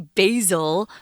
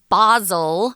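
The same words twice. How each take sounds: First: The word is said with an American pronunciation. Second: The word is said with a British pronunciation. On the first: "we say basil, which is an herb that you cook with" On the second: "anyone in the U K in general, even today, they pronounce this word basil"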